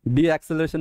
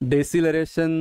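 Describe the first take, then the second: First: It begins 'dee' followed by a separate 'a' sound. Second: It begins 'dess' with no separate 'a' sound. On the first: The speaker calls it wrong. "डी एक्सेलरेशन नहीं है वो, ए नहीं ना उसमें" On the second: The speaker calls it right. "डेसिलरेशन बोलोगे आप"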